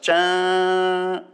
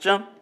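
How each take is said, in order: First: The sound is held out for a long time. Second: The sound is cut off very quickly. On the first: "deixar a nota ali suando muito tempo" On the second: "apenas um toque curto"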